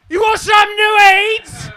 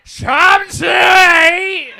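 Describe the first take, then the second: First: High, loud yelled question; loud mock shout. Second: Slow, high, loud shouted question; mock shout. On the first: Attendant shouting at a confused passenger, loud mock yell. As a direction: bellow it at the passenger. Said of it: "she was like". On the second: Attendant leaning down to a passenger, slow loud shout. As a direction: lean in and yell it slowly. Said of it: "reached down and went".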